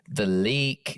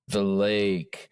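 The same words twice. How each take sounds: First: The vowel is one closed sound, almost E. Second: The vowel glides between two sounds, American style.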